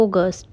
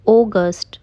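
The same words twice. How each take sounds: First: अगस्त said in English as "August"; correct pronunciation. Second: अगस्त said Hindi-style as "agast"; the common mistake, अगस्त read the Hindi way; wrong pronunciation. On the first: Teacher giving the right अगस्त. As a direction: give अगस्त an English "aw-gust". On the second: Teacher showing the wrong अगस्त. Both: Shown as a demonstration. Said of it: "अगस्त नहीं".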